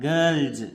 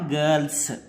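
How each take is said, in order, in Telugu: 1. ఈ పదం z శబ్దంతో ముగుస్తుంది. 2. ఈ పదం s శబ్దంతో ముగుస్తుంది. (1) "దీన్ని ఏమని చదవాలంటే గర్ల్స్ అనాలి" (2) "నాట్ గర్ల్స్. సా సౌండ్ అనేది రాకూడదు"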